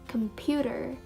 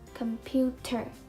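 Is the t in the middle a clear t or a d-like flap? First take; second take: d-like flap; clear t. First: The middle t is a quick d-like flap. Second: The middle t is a clear t sound. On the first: The speaker calls it right. "We pronounce it as computer" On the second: The speaker calls it wrong. "we don't pronounce it as computer"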